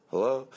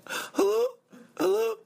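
First: Said in the usual way. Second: Very high falsetto mock girl; girl caller. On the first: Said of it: "not much different than my voice". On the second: Girl calling in to the show, high mock falsetto. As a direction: pitch it way up, girlish and questioning. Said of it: "the girl calls in, she goes".

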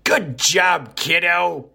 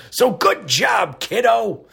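First: "Good job, kiddo" said higher with a falling end, a lightly voiced old-timer; older folks praise. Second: Slow and high "So good job, kiddo", a lightly voiced old-timer; folksy older praise. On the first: Host praising a listener like an older relative, lightly voiced. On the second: Host repeating the praise to a listener as an older relative, slow and high. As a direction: drawl it out like a proud grandpa. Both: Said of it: "as us older folks say".

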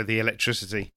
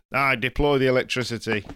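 First: Said in the usual way. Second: Put-on light northern English accent; a touch of northern accent. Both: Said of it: "I decided to do a northern accent as well".

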